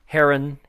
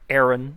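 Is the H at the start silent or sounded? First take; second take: sounded; silent. First: The word begins with a sounded H. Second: The word begins with a silent H.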